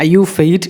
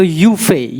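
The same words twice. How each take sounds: First: YUFEI with a final T, "you-fate"; wrong pronunciation. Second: YUFEI said "you-fay"; silent final T. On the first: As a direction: sound the T at the end of YUFEI. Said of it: "It's not U". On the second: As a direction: end YUFEI on an open "fay". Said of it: "T is silent". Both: Shown as a demonstration.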